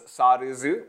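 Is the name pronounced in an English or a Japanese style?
Japanese. The name is said the Japanese way.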